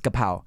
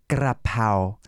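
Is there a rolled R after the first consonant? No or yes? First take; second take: no; yes. First: The word has no R after the first sound. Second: The word has a rolled R after the first sound. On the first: This is the plain, simplified pronunciation. "if you say straight up" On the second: This is the proper Thai pronunciation. "if you want to pronounce it like correctly, Thai correctly"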